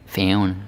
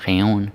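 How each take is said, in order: No difference in how they are said.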